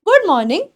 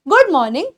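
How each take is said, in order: No difference in how they are said.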